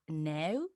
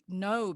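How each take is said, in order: First: The vowel is said the local, non-American way. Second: The vowel is said the American way. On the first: "people here pronounce completely differently" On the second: "I learned your way"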